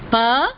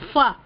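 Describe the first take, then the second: First: The syllable starts with an aspirated p. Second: The syllable starts with an f sound. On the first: The speaker calls it right. "Sanskritam, it is pa" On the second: The speaker calls it wrong. "it is not fa, fa, as in Hindi"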